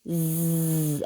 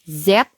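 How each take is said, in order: First: The letter is said as its bare sound. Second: The letter is said as its full name. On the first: "bunyi hurufnya" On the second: "nama hurufnya"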